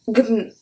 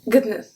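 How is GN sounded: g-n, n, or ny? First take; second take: g-n; g-n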